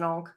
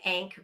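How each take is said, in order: First: The vowel is an open 'ah' sound. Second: The vowel is the 'a' of cat. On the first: This is how the speaker has always heard it. The speaker calls it right. "because it's an onk" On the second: This is how the character says it. The speaker calls it wrong. "which he calls an ank, which really annoyed me"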